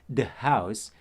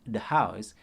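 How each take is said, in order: Both takes have the same delivery.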